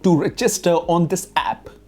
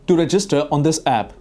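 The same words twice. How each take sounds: First: The phrase is broken up without flow. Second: The phrase flows smoothly and naturally. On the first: The speaker calls it wrong. "इस तरह से नहीं चलेगा, एक flow आना चाहिए" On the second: The speaker calls it right. "हम normal बोलेंगे"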